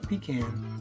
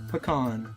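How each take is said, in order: First: The first syllable sounds like 'pee'. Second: The first syllable sounds like 'puh'. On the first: The speaker calls it wrong. "not pecan" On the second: The speaker calls it right. "That said pecan"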